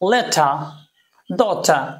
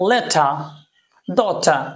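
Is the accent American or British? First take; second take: British; British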